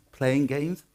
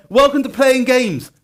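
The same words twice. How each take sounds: First: Said in the usual way. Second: Loud, high, drawn-out title announcement; big announcer welcome. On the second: Real, not acted. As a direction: announce it grandly to the whole room. Announcing the talk's title to audience.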